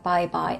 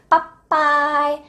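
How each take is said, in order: First: The b sound is plain, with normal pitch. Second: The b sound is tense, with higher pitch. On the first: The speaker calls it wrong. "it's not like bye bye" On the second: The speaker calls it right. "It's like bye bye"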